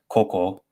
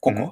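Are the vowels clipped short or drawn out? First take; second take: drawn out; clipped. First: The vowels are less clipped and more drawn out. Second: The vowels are very short and staccato. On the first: The speaker calls it wrong. "It's not koko" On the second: The speaker calls it right. "get that that sort of staccato rhythm down"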